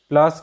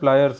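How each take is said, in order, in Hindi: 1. यह शब्द एक छोटे अक्षर में सिमट गया है, "plas"। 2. यह शब्द दो अक्षरों के साथ पूरा बोला गया है, "pliers"। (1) "इसे गांव की भाषा में प्लास कहते हैं" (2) "अंग्रेजी में सही उच्चारण इसका है प्लायर्स"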